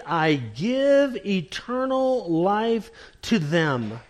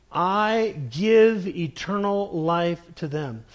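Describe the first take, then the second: First: "give" slow and weighted; stress on give. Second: "give" pressed, steady pace; stress on give. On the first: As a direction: slowly lean on "give". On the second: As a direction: hit "give" firmly. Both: Shown as a demonstration. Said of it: "Notice the tense of that verb there".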